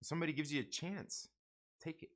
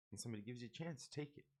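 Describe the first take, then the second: First: Said in the usual way. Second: Much softer, almost under the breath; soft repeat. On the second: Shown as a demonstration. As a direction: let the advice sink in quietly.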